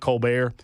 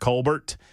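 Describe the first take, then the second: First: The final T sound is silent. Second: The final T sound is pronounced. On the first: The speaker calls it wrong. "and not Colbert" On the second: The speaker calls it right. "I'm going to go with Colbert"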